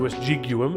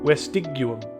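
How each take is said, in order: First: The G is pronounced soft, as in 'gem'. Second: The G is pronounced hard, as in 'go'. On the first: The speaker calls it wrong. "As opposed to" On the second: The speaker calls it right. "It's always a hard G in Latin"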